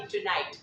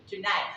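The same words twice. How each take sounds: First: TONIGHT with a clear last T; final T sounded. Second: TONIGHT said like "tonigh"; final T dropped. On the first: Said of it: "it'll not be tonight". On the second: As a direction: say TONIGHT, hold back the last T. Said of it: "not pronouncing the T at the last". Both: Shown as a demonstration.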